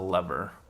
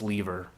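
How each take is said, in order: First: Lever is said with a non-British pronunciation. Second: Lever is said with a British English pronunciation. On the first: "everyone else calls it a lever" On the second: "if you're English, like British English, it's lever"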